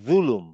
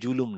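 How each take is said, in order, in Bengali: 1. প্রথম ধ্বনিতে জিভ দাঁতের মাঝখানে থাকে। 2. প্রথম ধ্বনিটি সাধারণ z ধ্বনি। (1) "এটা হচ্ছে জুলুম" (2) "আসলে জুলুম না"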